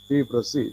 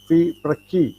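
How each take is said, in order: First: The second syllable's consonant is an s sound. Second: The second syllable's consonant is a k sound. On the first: The speaker calls it wrong. "not Fi Prasi" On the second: The speaker calls it right. "It should be pronounced as Fi Praki"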